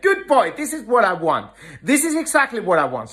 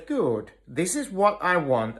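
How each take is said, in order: First: High, bright-spirited praise with a laugh; more emotional praise. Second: Soft, settled praise, softer than the talk; calm praise. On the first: Trainer praising dog that came when called, much higher excited praise. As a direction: cheer the dog on as he comes. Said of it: "I show a little bit more emotions". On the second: Trainer releasing his grip on the calmed dog, calm soft praise. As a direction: reward the now-calm dog quietly. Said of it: "my emotions are very calm". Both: Shown as a demonstration.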